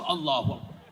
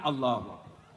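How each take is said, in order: First: It is said in a livelier, more energetic way. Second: It is said limply, as if blown away.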